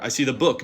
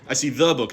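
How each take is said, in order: First: The stress falls on the word book. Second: The stress falls on the word the. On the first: It is a book rather than a different object. "not the pamphlet" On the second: It is this particular book, not another. "not some other book"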